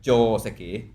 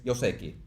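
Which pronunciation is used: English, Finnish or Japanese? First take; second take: Japanese; Finnish. First: It has a longer O and different stress. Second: It starts with a Y sound, like Yoseki. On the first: "in Japanese, the O is longer" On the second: "we go to Finland, where it's Joseki"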